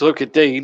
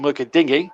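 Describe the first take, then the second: First: The surname is said as one syllable. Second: The surname is said as two syllables. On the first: The speaker calls it right. "But it's Luca Dean" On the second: The speaker calls it wrong. "some commentators still call him"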